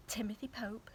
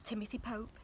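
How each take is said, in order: Both takes have the same delivery.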